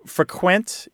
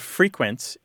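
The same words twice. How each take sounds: First: The stress is on the second syllable. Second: The stress is on the first syllable. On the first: It is a verb: to visit a place often. "frequent is the verb" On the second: It is an adjective: happening often. "frequent is the adjective"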